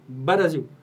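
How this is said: It is said imitating an Arabic speaker's accent. "um árabe não consegue falar Brasil, fala Brasil"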